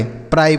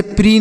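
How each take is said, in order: First: PRI read as "प्राई", rhyming with English "dry"; "प्राई" ending in an eye sound, not ee; correct reading. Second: PRI misread as "प्री", with a long ee vowel; "प्री" ending in ee instead of an eye sound; wrong reading. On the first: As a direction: say "प्राई" with a long eye diphthong. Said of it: "प्राई पढ़ेंगे". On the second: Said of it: "इसे प्री नहीं पढ़ेंगे". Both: Shown as a demonstration.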